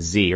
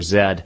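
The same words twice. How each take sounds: First: The letter is said the American way, 'zee'. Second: The letter is said the British way, 'zed'.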